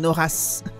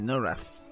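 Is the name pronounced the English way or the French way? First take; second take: French; English. First: The name is said with a French pronunciation. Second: The name is said with an English pronunciation. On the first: "En français, c'est Norath" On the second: "en anglais, c'est Norath"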